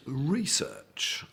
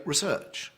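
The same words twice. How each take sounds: First: Research said the ordinary everyday way; common research. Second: Research said the upper class way, with clipped posh vowels. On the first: Speaker showing the common way to say research, in an ordinary everyday pronunciation. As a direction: say research like most people do. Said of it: "A lot of people pronounce it". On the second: Speaker showing how upper class people say research, with clipped posh vowels. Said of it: "upper class people axiomatically". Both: Shown as a demonstration.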